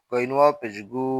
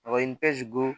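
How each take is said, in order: First: গু with a long u; গু held long; stretched vowel. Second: গু with a short u; no stretch. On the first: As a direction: draw out the vowel of গু. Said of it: "ওয়াও থাকলে টান দিব". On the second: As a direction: cut the vowel of গু short. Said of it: "আমরা টান দিব না". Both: Shown as a demonstration.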